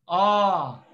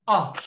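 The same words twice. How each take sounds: First: The vowel is held long. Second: The vowel is cut short. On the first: "you pronounce it as a long sound" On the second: "A short sound is ah"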